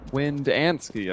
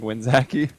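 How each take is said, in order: First: The name is said as Windansky. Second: The name is said as Winzaki. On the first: The speaker calls it right. "I've been saying that wrong completely" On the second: The speaker calls it wrong. "I kept saying Winzaki"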